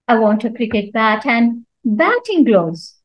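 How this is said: The stress falls on the word batting. It must be batting gloves, not other gloves. "So when I stress on batting"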